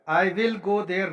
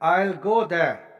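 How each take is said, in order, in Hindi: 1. 'I will' को दो पूरे शब्दों की तरह बोला जाता है। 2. 'I will' एक ही शब्दांश में सिकुड़कर बोला जाता है। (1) "नहीं बोलना है" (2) "अब आपने बोलना है"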